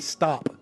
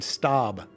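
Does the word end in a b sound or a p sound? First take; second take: p sound; b sound. First: The word ends with a p sound. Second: The word ends with a b sound. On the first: The speaker calls it right. "Instead of saying stop" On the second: The speaker calls it wrong. "they're saying stob"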